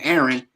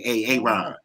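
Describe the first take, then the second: First: The name is said in its usual way. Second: The name is said with an extra opening syllable. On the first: The speaker calls it right. "instead of saying Aaron" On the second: The speaker calls it wrong. "he would mispronounce all their names"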